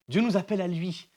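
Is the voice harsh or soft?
soft. It is said in a soft, gentle voice.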